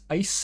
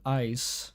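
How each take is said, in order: First: The vowel is raised, Canadian style. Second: The vowel is standard, not raised.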